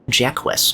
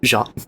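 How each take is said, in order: First: The name is said as two syllables. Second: The name is said as one syllable.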